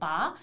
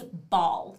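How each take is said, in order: First: The word ends without the final L sound. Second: The word ends with a clear final L sound. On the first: The speaker calls it wrong. "they couldn't say it well, they said ba" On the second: The speaker calls it right. "It's ball. You missed the ul"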